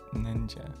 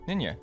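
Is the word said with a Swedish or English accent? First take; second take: English; Swedish. First: It is said the English way, with a D sound. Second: It is said the Swedish way, without a D sound.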